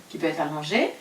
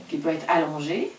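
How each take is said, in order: Both takes have the same delivery.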